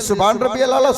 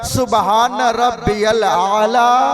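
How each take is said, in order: First: It is said quickly, rushed together. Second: It is said slowly, with measured pauses.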